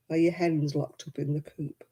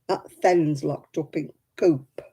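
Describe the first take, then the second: First: Said in the usual way. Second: Slow, "then's" with no h and no "the" before "coop"; slow Lancashire accent with "then's" run together; Lancashire dialect. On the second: Shown as a demonstration. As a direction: say it like an Oldham hen keeper in a Lancashire accent. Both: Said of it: "Everything has a th".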